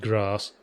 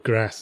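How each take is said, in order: First: It is said in a non-northern English accent. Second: It is said in a northern English accent. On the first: "instead of grass" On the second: "using northern inflections"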